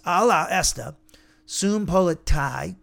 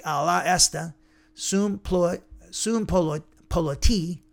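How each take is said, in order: First: "sum politai" spelled out slowly and firmly, syllable by syllable; slow careful Greek. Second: Tripping over "sum polo-" while reading Greek aloud; stumbling over Greek. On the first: Shown as a demonstration. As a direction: read "Ala esta, sum politai" slowly, clearly. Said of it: "So it's". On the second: Real, not acted. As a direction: restart "politi" mid-word, fumbling the Greek syllables. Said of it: "it's a tongue twister".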